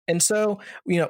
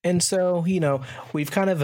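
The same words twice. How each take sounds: First: Said in the usual way. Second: Throat catching on the words; speaking with something stuck in the throat; frog in throat. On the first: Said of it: "Let me start that over". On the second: Real, not acted. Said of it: "kinda had something in my throat there".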